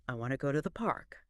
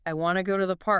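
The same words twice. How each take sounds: First: "I wanna go to the park" quick and soft, with "park" stressed; fast, flowing, lower, softer; natural stress. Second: Every word "I wanna go to the park" stressed the same, like a robot; flat robotic beat on each word; robotic equal stress. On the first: Teacher showing the natural way, quick flowing stress. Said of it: "the way we actually say it is". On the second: Teacher showing the wrong way, robot-like even stress. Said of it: "It would sound like". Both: Shown as a demonstration.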